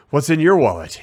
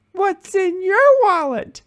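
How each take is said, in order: First: Mildly exasperated tagline to camera; understated exasperation, turning to the lens; lightly acted weary dad line; a little exasperated. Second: Put-on very high, drawn-out toddler voice; squeaky little-kid impression, slow; Charlie. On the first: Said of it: "a little, uh, exasperated". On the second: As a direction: imitate a two-year-old proudly delivering a tagline. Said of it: "little two and a half year old Charlie".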